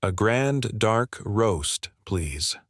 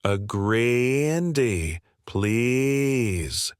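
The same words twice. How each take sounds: First: Polite Canadian, unhurried; a light Canadian lilt, very slow; soft Canadian accent. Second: Very slow, drawn-out mock Canadian accent; mock the customer's Canadian accent; sneering parody of a Canadian accent, stretched out; mocking Canadian imitation. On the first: Acted. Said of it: "his soft Canadian accent becoming more apparent". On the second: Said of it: "Alex's voice shifted to a mocking tone".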